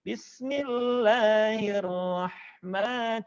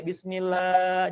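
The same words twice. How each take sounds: First: "Bismillahirrahman-" chanted with measured long vowels; sung, swing the vowels of "Bismillahirrahman-" without overholding; sung, swayed recitation. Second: "Bismillah" with last a stretched; overlong vowel. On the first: Sung, teacher corrects overlong vowels, swayed recitation. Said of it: "cukup diayunkan suaranya". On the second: Teacher shows what to avoid, overlong "Bismillah". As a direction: drag out the "lah" of "Bismillah". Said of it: "jangan kepanjangan lagi ya". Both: Shown as a demonstration.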